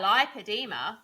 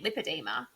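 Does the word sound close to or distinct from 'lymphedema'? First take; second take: distinct; close. First: It sounds clearly different from lymphedema. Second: It sounds very much like lymphedema. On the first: Listeners can tell it is another condition. The speaker calls it right. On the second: Listeners confuse it with another condition. The speaker calls it wrong.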